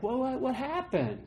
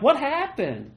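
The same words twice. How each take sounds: First: Higher, softer, bewildered question; puzzled God. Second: Higher, bewildered exclamation; baffled self. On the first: God asking where his people went, softly puzzled. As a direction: wonder aloud where they went. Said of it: "And God's like". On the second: Preacher echoing God's question, higher and baffled. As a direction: ask it in plain disbelief. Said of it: "I'm like". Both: Retold or imitated.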